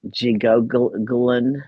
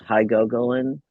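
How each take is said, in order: First: The word begins with a J sound. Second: The word begins with an H sound.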